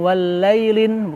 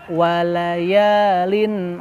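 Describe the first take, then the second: First: The middle part is shortened to a single syllable. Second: The middle part is drawn out across two syllables. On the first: The speaker calls it wrong. "bukan walailin" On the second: The speaker calls it right. "tapi walaya walayalin"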